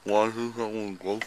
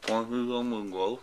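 First: Slurred numb mouth; words mushy from anesthesia; numb from the dentist. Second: Slurred, numb lips; mumbling through a numb mouth; numb from the dentist. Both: Real, not acted. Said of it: "I can't move my mouth".

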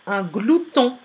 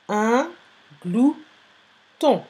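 First: Said in the usual way. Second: "Un", pause, "glouton" split as glou, pause, ton; syllable by syllable. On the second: Shown as a demonstration. Teacher dictating the last word, "Un glouton" syllable by syllable. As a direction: break "Un glouton" into three separate pieces. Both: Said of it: "Travaillez par syllabe".

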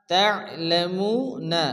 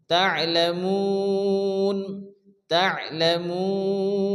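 First: Slow "তা'লামুনা", throat catch after "তা"; full unpaused "তা'লামুনা"; joined ayn. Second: "তা'লামুন" with very long held "মু"; stopped ending, long sustained "মুন"; four-beat elongation. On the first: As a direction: join "তা" to the ayn, voice the final "না". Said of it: "তার সঙ্গে আইন সংযুক্ত হবে". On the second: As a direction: chant "তা'লামুন", stretching "মু" into a closing "ন". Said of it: "চার আলিফ পরিমাণ টান দিয়ে". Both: Shown as a demonstration.

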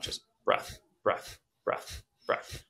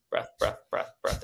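First: Quiet, unvoiced, popping exhales; sharp nose exhales. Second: Quick unvoiced popping breaths; faster sharp exhales. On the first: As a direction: blow each one out hard. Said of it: "sharp breaths blowing out". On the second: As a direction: speed the pops up. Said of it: "same thing faster". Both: Shown as a demonstration.

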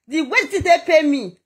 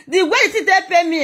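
First: Laughing through the repeat; bitter laugh while repeating it. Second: Said in the usual way. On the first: Real, not acted. Woman telling her followers how she was treated, laughing. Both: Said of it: "repeats it the second time laughing".

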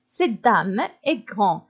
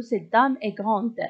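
First: "grande" with no final d sound, ending on a nasal vowel; masculine-sounding "grande". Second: "grande" with the final d clearly pronounced; feminine ending sounded. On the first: Teacher reads the exercise before agreement, "grande" with silent d. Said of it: "إذا تا غروند غتاخد التأنيث". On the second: Teacher gives students the corrected feminine sentence, "grande" with sounded d. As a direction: close "grande" on an audible d after the nasal vowel. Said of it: "المارك ديال التأنيث هو او". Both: Shown as a demonstration.

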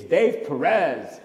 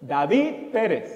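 First: "Dave Perez" as dayv puh-REZ, drawn out; anglicized pronunciation. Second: "David Perez" as dah-VEED PEH-res; proud Spanish pronunciation. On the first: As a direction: say "Dave Perez" slowly in plain English sounds. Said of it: "It's Dave Perez". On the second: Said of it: "with pride I say". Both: Retold or imitated.

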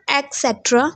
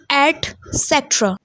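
First: Etcetera as ek-SET-ra; mispronunciation. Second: Etcetera as et-SET-ra, t sounded; correct pronunciation. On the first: Teacher showing students the error, mispronounced. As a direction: say etcetera starting with a k sound. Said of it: "It's not etcetera". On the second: Teacher giving the fix, slow and correctly pronounced. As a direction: say etcetera starting with a clear et, slowly. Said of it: "There is a ta". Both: Shown as a demonstration.

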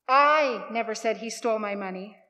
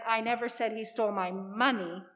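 First: "I" stretched and hit hard at the start; stress on I. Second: "money" leaned on at the end; stress on MONEY. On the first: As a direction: punch the opening word "I", then let the rest follow. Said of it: "emphasize a different word in that sentence". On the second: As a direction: save the emphasis for the final word "money". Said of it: "sounds different and means different than". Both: Shown as a demonstration.

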